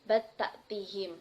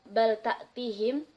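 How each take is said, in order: First: The L sound merges into the following T. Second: The L sound is clearly pronounced.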